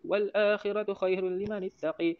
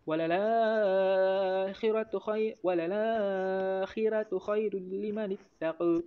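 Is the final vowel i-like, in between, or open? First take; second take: i-like; in between. First: The final vowel leans fully toward i. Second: The final vowel is between a and i. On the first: "imalah dekat taqa"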